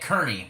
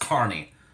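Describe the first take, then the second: First: The name is said the way it is spelled. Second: The name is said the local way. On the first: The speaker calls it wrong. "I keep pronouncing it Kearney because of how it's spelled" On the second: The speaker calls it right. "but it is pronounced Kearney"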